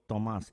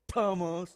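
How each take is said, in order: First: The T is a light sound made in the mouth. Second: The T is pushed out strongly from the chest. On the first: The speaker calls it right. "It's a it's a mouth thing" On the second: The speaker calls it wrong. "Other people resonate it in the chest"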